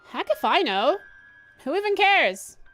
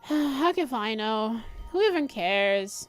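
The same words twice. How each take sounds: First: It is said with sharp, strong attitude. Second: It is said sleepily, with a yawn.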